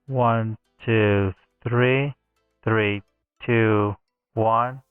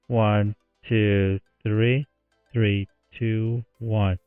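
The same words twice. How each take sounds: First: The one-kilohertz range of the voice is boosted. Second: The one-kilohertz range of the voice is cut. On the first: "I'm going to raise this up" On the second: "Let's go negative"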